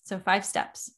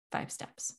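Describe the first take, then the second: First: Said in the usual way. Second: Breathy whispered repeat, almost to yourself. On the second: Shown as a demonstration. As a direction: echo it back in a whisper. Whispered echo of the recap.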